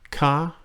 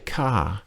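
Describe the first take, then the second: First: The pitch rises on the syllable. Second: The pitch falls on the syllable. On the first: It is a polite question ending. "or if it's a question, they can also do this" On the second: It is a polite statement ending. "falling tone"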